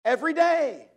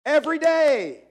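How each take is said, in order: First: Both words a little higher and louder, pressed home; emphatic repeat. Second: Every day almost called out, higher and louder; louder insistence. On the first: Preacher urging the congregation to pray, emphatic. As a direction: lean hard on Every day. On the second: Preacher pressing daily prayer on listeners, near shout. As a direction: drive Every day home with full force. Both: Shown as a demonstration. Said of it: "You need to have time to pray every day".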